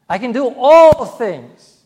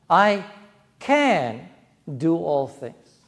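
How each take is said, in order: First: The stress falls on the word all. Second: The stress falls on the word can. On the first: Everything is possible, not just certain things. "Not just certain things. All things" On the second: It is possible. "It's possible. I can"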